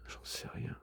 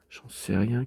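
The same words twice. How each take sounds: First: Barely audible whisper; whispered shrug. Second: Said in the usual way. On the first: Real, not acted. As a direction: breathe it out, no voice. Whispered then repeated aloud.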